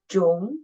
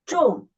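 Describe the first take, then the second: First: The pitch rises from middle to high. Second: The pitch falls sharply from high to low. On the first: "The second tone, raise up" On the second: "the fourth tone ... from the highest down to the lowest"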